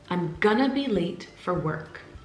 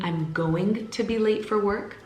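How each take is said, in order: First: 'Going to' is squished into a fast 'gonna'. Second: 'Going to' is said in full, every sound. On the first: "Another example is" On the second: "So instead of saying"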